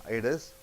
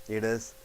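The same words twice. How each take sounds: Both takes have the same delivery.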